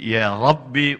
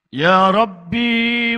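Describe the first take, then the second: First: The final vowel of Rabbi is short. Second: The final vowel of Rabbi is long. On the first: It means O Lord. "di sini dibaca pendek" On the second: It means my Lord. "Kalau B-nya kamu baca panjang"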